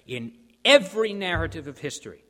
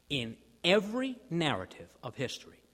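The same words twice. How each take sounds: First: A preacher's loud call to the congregation; loud proclamation. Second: Said in the usual way. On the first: Real, not acted. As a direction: ring out EVERY with full force. Preacher proclaims, then repeats softer.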